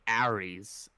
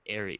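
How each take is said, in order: First: It is said with a heavy New York accent. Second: It is said with a standard, non-New York accent.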